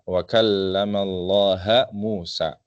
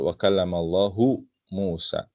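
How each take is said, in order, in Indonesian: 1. Allah berakhir dengan vokal 'a'. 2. Allah berakhir dengan vokal 'u'. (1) "Allahnya di sini dibaca mansub" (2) "Yang betul"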